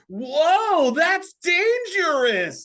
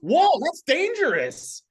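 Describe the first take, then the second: First: The line is stretched out slowly. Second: The line is said quickly and plainly.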